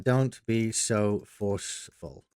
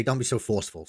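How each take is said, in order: First: Very slow, drawn-out typing voice; slow dictation. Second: Said in the usual way. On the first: Shown as a demonstration. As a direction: stretch "Don't be so forceful" out word by word as you type it. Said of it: "let's do that".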